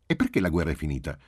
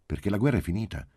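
First: Quick follow-up question, leaning on "perché"; child's insistent why, "perché" on top; questioning back. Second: Quick answer, falling on "finita"; higher and quick, closing firmly on "finita"; plain statement. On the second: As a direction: state "la guerra è finita" as a brisk, settled fact. Mother answers child's question. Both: A narrator's reading.

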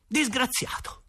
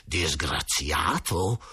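First: Higher, hurt and defiant; a boy flaring up, much higher; indignant outburst. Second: Low, slow, seething; a lower, slow, bitter hiss; through clenched teeth. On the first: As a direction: throw the word back at him. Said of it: "e scattai". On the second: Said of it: "esclamò a denti stretti". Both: A narrator's reading.

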